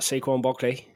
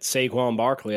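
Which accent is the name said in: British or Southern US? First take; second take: British; Southern. First: The name is said in a British accent. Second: The name is said in a Southern US accent. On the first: "If I go talk in my British accent" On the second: "There's your Southern accent"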